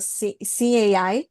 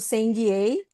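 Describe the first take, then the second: First: The name is said with English sounds. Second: The name is said with Brazilian Portuguese sounds. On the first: "o correto nome é o SimAI" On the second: "bem, entre aspas, abrasileirado"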